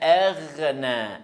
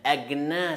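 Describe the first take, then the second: First: The consonant is a throaty gh sound. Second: The consonant is a plain g sound. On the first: The speaker calls it right. "Agh, c'est pas agna" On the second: The speaker calls it wrong. "Agna, c'est faux"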